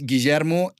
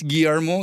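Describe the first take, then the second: First: The double L is said as 'sh'. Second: The double L is not said as 'sh'. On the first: This is how it is said back home in Argentina. "but home is Guillermo" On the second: This is how it is said in the current country. "So it is Guillermo here"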